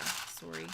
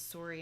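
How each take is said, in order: First: Wisconsin sorry, "sorry" with a long rounded o; Wisconsin accent sorry. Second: Said in the usual way. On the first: Shown as a demonstration. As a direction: say "sorry" the Wisconsin way, much lower. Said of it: "sorry instead of sorry". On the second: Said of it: "the only thing that was weird with the accent".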